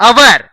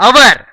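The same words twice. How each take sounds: The two takes are said the same way.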